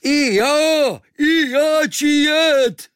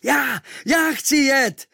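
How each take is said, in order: First: Very high, loud, stretched-out foreigner's holler; joining in shouting. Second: High, loud, drawn-out eager call; volunteer at the top of your voice; shouting at full lungs. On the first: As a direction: echo the eager cry, wilder and slower. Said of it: "A Kvíkvék se hned přidal". (nadšený, táhlý výkřik cizince) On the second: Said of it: "volal jsem z plných plic". (volání z plných plic) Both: A narrator's reading.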